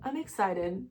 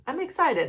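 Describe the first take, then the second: First: Soft, tearful; crying, quiet. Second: Higher, forcing cheer through tears; crying, pushing brighter. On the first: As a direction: whisper it through tears. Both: Real, not acted. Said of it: "I can't stop crying".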